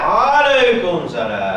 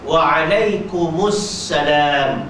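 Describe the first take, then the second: First: The m stays silent before salam. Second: The m carries a vowel before salam. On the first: The speaker calls it wrong. "salah dah tu" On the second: The speaker calls it right. "Itu yang betul"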